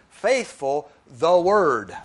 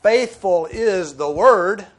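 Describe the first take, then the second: First: Faithful the word, each word slow and apart; slow literal reading. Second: "Faithful" stressed, slow and much louder; emphatic rendering. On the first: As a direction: read "Faithful the word" slowly, word by word. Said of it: "Literally, the original translates". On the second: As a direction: lean hard on "Faithful", slow and loud. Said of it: "we could say". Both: Shown as a demonstration.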